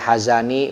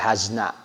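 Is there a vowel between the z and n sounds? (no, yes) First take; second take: yes; no. First: A short a vowel follows the z. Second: No vowel follows the z. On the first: "zainya boleh dibaca fathah" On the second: "boleh dibaca sukun"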